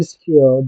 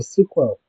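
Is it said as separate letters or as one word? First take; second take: separate letters; one word. First: Each letter is spoken separately. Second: It is run together as one word. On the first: "with all your mouth" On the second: "you are speaking like a professional"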